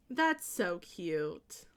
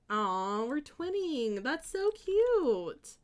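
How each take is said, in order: First: Low, slow repeat of the coo; softened coo. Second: High, drawn-out coo; gushing coo. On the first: Streamer settling after gushing over twinning, low slow coo. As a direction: say it low and drawn out. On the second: Streamer gushing over twinning with a viewer, high drawn-out coo. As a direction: coo it, stretching the word cute. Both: Real, not acted.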